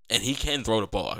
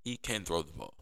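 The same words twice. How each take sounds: First: "can" leaned on with a falling tune; stress on can. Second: "can" stressed again but the line drops much softer; a hushed insistence on "can". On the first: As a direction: insist on "can" in "he can throw the ball". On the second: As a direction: repeat "He can throw the ball" quietly, still leaning on "can". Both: Real, not acted. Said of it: "I gotta emphasize that every week".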